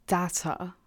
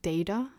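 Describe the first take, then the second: First: "data" said tata, short a. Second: "data" said tayta, long ay; "data" with ay as in day, rising. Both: Shown as a demonstration. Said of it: "I don't know how you say it in British English".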